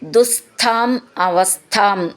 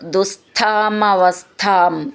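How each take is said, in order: First: The two words are said separately. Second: The two words are joined into one.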